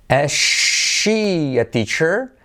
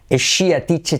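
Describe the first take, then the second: First: "she" with very long sh, slow "teacher"; slow sh and ch model. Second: "teacher" with crisp ch, no stretching; sentence with clear CH. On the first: Teacher introducing the sentence, slow exaggerated sh. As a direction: stretch the question out sound by sound. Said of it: "tenemos she en che". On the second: Teacher repeating the question, clear ch at normal speed. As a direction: ask it briskly, keeping sh and ch apart. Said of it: "Cuidado no decir t-shirt". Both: Shown as a demonstration.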